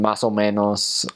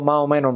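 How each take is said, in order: First: Every s sound is clearly pronounced. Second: The s sounds are dropped, almost mumbled. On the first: "instead of saying" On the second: "They drop their S's a lot of the time"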